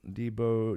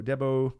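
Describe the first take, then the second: First: "Debo" said as DEE-bo; first-try pronunciation. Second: "Debo" said as DEB-oh; corrected pronunciation. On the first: Streamer reading out a chat name, first-try pronunciation. Tries a name, then corrects it. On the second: Streamer correcting a chat name, corrected pronunciation. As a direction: say "Debo" with a short e first. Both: Real, not acted.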